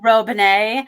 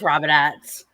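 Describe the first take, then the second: First: The name is said with a fancy flourish. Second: The name is said plainly, without flourish. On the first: "Lots of people try to flare it up and do Robinette" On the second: "but it's Robinette"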